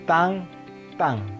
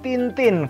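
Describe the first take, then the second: First: Each syllable has a nasal 'ang' vowel. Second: Each syllable has a plain 'i' vowel. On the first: The speaker calls it right. "jadi dibacanya tang tang karena in itu ang" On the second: The speaker calls it wrong. "jangan dibaca Tintin karena ini bahasa Prancis"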